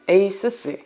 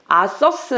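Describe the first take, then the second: First: It starts with 'ay' and ends 'soos'. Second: It starts with 'ah' and ends 'suhs'. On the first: The speaker calls it right. "에이수스입니다" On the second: The speaker calls it wrong. "아서스 아니고"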